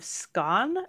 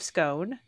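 First: The word is said with a British pronunciation. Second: The word is said with an American pronunciation. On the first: "the British pronunciation is more Stone of Scone" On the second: "The American pronunciation is just straight up Stone of Scone"

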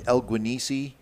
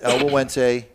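First: The name is read literally, letter by letter. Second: The name is said in its established pronunciation. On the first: This is how an outsider would read it. The speaker calls it wrong. "it looks like El Guanisi" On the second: This is how someone in the know says it. The speaker calls it right. "that's El Wawense. I'm in the club. I know how to say it"

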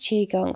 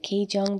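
First: The first syllable sounds like the word Qi. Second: The first syllable follows the written spelling instead. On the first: The speaker calls it right. "it's pronounced Qigong" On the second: The speaker calls it wrong. "I pronounce it Qigong because I read it for the first time"

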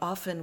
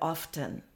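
First: The T sound is silent. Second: The T sound is pronounced. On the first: "I grew up saying often without a T" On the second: "instead of often"

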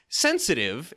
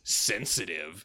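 First: The word is said with an approving inflection. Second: The word is said with a disparaging inflection. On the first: Being sensitive is a good thing. "it's like oh, it's a good thing" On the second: Being sensitive is seen as a flaw. "then it comes across differently"

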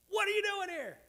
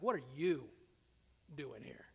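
First: The question sounds joyful and excited. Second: The question sounds uneasy and troubled. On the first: The speaker is thrilled to see the visitor. "It can be interpreted from very exuberant" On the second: The visitor's arrival is unwelcome or worrying. "to a little bit more disturbing and problematic"

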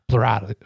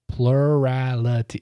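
First: The word is said quickly and stumbles. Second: The word is said slowly and carefully. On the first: The speaker calls it wrong. "Say it fast" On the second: The speaker calls it right. "If I say it slow, I can say it"

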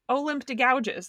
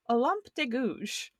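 First: The name is said with English-style pronunciation. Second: The name is said with French pronunciation. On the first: The speaker calls it wrong. "not Olympe de Gouges, like it looks" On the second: The speaker calls it right. "which is apparently how it's pronounced"

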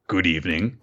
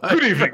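First: It is said in a normal voice. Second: It imitates Frasier Crane's voice.

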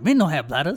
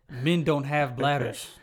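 First: It is said with a nasty attitude. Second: It is read out in a plain tone.

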